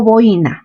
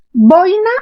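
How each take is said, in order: First: Boina in three syllables, bo-I-na; stress on I. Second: Boina in two syllables, stressed BOI-na. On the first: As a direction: break the diphthong in boina and stress the i. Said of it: "lo correcto no es boina". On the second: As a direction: hit the diphthong oi at the start of boina. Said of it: "sino boina". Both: Shown as a demonstration.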